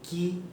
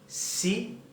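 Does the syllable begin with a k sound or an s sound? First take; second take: k sound; s sound. First: It begins with a hard k sound. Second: It begins with a soft s sound. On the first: The speaker calls it wrong. "Não é" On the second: The speaker calls it right. "vão ter um som de S"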